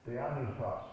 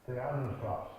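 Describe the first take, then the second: The two takes are said the same way.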